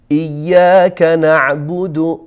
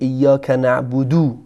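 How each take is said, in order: First: The phrase ends in a short u vowel. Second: The phrase ends in a long u vowel. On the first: The speaker calls it right. "پس این گونه تلاوت میشه" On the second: The speaker calls it wrong. "همیشه ضمه رو به واو تبدیل میکنن و این اشکالی هست"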